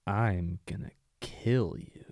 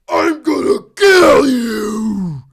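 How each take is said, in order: First: Slow, soft, lightly voiced villain threat; a hint of a calm, creepy villain; chill creepy villain. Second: Slow, loud, drawn-out villain threat; evil villain voice. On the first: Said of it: "the chill, creepy villain". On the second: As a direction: bellow it like a cartoon villain. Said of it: "do your best evil villain voice". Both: Shown as a demonstration.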